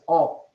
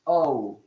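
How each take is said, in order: First: The O is a pure Spanish vowel. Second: The O is an English gliding vowel. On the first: "In Spanish is O" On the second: "English O"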